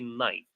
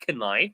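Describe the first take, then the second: First: No K sound is heard at the start. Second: A K sound is heard at the start. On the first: The speaker calls it right. "The K is silent. ... we say knife" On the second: The speaker calls it wrong. "We don't say knife"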